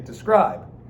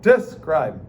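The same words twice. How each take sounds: First: The stress is on the second syllable. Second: The stress is on the first syllable. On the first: The speaker calls it right. "You say describe ... unstressed followed by a stressed" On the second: The speaker calls it wrong. "it's so hard to say them backwards"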